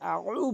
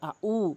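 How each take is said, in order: First: It starts with a throaty pharyngeal sound. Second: It starts with a plain glottal stop. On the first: The speaker calls it right. "এখানে আউ বলতে হবে" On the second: The speaker calls it wrong. "এই আইনের জায়গায় হামজা এনে উচ্চারণ করে"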